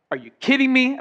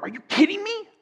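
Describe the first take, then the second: First: "kidding" leaned on, plain pitch; stress on kidding. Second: High, shocked "Are you kidding me?" with the pitch up on me; shocked disbelief. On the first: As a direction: hit kidding with flat disbelief. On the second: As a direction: squeal it in shock. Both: Shown as a demonstration. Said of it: "say it a lot of different ways".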